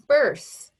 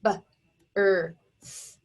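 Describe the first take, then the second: First: Said in the usual way. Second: Birth split into b, er, th with pauses; segmented phonics sounds, "B-er-th"; sounded out. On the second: Shown as a demonstration. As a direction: tap out "B-er-th" sound by sound. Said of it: "Tap it out".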